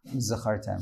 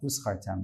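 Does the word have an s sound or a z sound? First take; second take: z sound; s sound. First: The middle consonant is a clear z sound. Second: The middle consonant is an s sound. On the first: The speaker calls it right. "clearly say the word, the letter Zayin when you say Uzachartem" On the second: The speaker calls it wrong. "and not Uzachartem, that you're paying someone for it"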